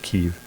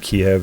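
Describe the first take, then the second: First: The name is said the newer way. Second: The name is said the older way. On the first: This is the name adopted after a news event. The speaker calls it wrong. "they changed it to Kiev" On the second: This is the traditional name everyone once used. The speaker calls it right. "it used to be Kiev"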